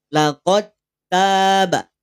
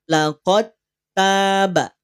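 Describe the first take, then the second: The two takes are said the same way.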